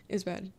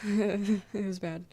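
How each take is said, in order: First: Said in the usual way. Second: Laughing through it, slowed right down. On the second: Real, not acted. Streamer laughing while telling chat the chat went badly. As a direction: let a laugh spill over the words. Laughing about meeting Scots person.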